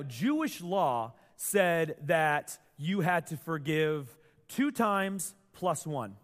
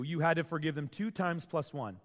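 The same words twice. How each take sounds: First: Slow emphasis. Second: Said in the usual way. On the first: Shown as a demonstration. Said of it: "slow emphatic statement". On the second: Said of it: "repeat of rule".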